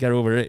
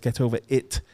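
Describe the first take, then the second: First: It is said in a North American accent. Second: It is said in a non-American local accent. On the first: "You're saying get over it" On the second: "It's get over it"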